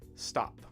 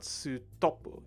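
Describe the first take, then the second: First: The consonants are joined with no added vowels. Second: Vowels are inserted between and after the consonants. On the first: The speaker calls it right. "it's st, stop" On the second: The speaker calls it wrong. "It's not sutopu"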